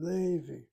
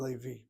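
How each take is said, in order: First: Levi with a long, stressed LE; stress on first syllable. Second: Levi with the accent on final VI; stress on last syllable. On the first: Teacher choosing a pronunciation, Levi stressed on LE. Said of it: "So I stop with the word Levi". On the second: Teacher showing the rejected option, Levi stressed on VI. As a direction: shift the weight to the end of Levi. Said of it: "rather than Levi". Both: Shown as a demonstration.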